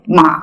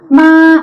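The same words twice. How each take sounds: First: The pitch drops sharply down. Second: The pitch stays high and level. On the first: "삼성의 경우는 좀 많이 뚝 떨어지게" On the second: "일성의 경우는 도레미파솔에 해당되죠. 그래서 마 이렇게 고음으로 시작되고요"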